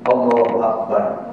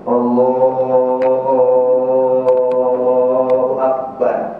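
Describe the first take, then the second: First: The vowel is cut short. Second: The vowel is drawn out long.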